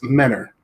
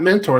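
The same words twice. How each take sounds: First: The word is said the local Ohio way. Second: The word is said just as it's spelled. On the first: The speaker calls it right. "you have to say it right. It's Mentor. That's how everybody up here says it" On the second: The speaker calls it wrong. "It's not Mentor if you look at it"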